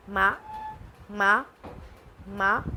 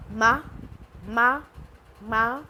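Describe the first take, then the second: First: मा climbing upward like a question, meaning hemp; rising second tone. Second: मा sung level and steady, meaning mother; first tone ma. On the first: Teacher showing rising tone for hemp. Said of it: "हेम". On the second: Teacher showing flat tone for mother. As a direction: hold मा flat like a held note. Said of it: "mother". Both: Shown as a demonstration.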